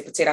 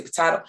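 First: "potato" with a long ay in the middle; "potato" with middle syllable like day; potato as "po-tay-to". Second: "potato" with an open ah in the middle; "potato" with middle syllable like spa; potato as "po-tah-to". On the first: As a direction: say "potato" as puh-TAY-toe. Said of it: "and you say potato". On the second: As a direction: say "potato" as puh-TAH-toe. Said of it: "I say potato". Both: Shown as a demonstration.

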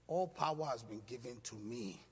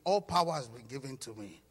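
First: Said in the usual way. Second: "All power" said louder with conviction; emphatic declaration. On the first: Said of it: "Say it like you mean it". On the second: Shown as a demonstration. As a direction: say "All power" like you mean it. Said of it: "So say it like you mean it".

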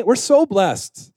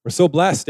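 First: SO drawn out and pitched high; stress on SO. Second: Said in the usual way. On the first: Real, not acted. Pastor thanking the church for its worship teams, emphatic stretched SO. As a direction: lean long and high on "so".

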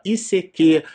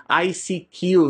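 First: "I C Q" said in Portuguese, "i-cê-quê"; "I C Q" read as a Portuguese acronym; Portuguese letter names. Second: "I C Q" said in English, "ai-si-kiu"; "I C Q" pronounced like "I seek you"; English letter names. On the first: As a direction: spell "I C Q" with Brazilian letter names. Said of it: "depois ficou aquela sigla". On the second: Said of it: "Então, em inglês". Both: Shown as a demonstration.

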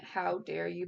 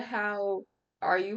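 First: "How dare you" with a crisp d on "dare"; corrected line. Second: "How are you" with no d, like a greeting; casual slip reading "How are you"; misread line. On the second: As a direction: say "How are you" where "dare" belongs. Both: Shown as a demonstration. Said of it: "but I meant".

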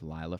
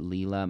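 First: Lila, first syllable said LIE; chosen pronunciation. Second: Leela, first syllable said LEE; alternative pronunciation. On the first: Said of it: "we're gonna just go with". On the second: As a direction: say Leela with a long ee. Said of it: "Some people might pronounce it". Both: Shown as a demonstration.

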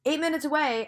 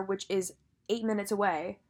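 First: "Eight minutes away" pitched higher in disbelief; exasperated repeat. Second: Said in the usual way. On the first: Real, not acted.

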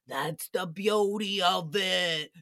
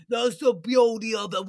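First: Mock Sebastian. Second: Louder imitation of Sebastian; mock Sebastian. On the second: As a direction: press the line out louder, insisting. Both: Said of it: "Sebastian's like".

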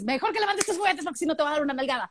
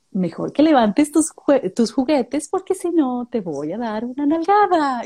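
First: Quicker, flatter scolding. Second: Higher, slow and sweetly sung; sweet scolding to a child. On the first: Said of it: "A que le digas". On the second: Parent telling a child to pick up toys, sweet singsong. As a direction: threaten a toddler in the nicest voice. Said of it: "se lo dices así como bien bonito". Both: Retold or imitated.

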